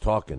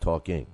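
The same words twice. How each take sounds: First: The word ends in 'in' without the g. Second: The word ends in 'ing' with the g. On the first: The speaker calls it right. "drop the G in talking. It's talking" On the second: The speaker calls it wrong. "not talking"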